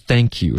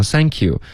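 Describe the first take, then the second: First: Said in the usual way. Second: 故意把thank you读成“sank you”; thank开头不咬舌尖，发s音; th错读成s. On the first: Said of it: "说错了". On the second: Shown as a demonstration. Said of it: "说成thank you". (thank you读成sank you)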